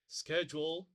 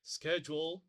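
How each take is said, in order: First: The word is said in an American accent. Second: The same.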